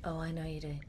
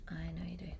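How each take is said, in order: First: Said in the usual way. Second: Soft whispered echo; breathy whispered repeat. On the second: Real, not acted. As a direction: whisper it back teasingly.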